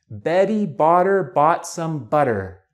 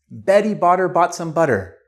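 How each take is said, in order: First: It is said at a normal pace. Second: It is said more quickly.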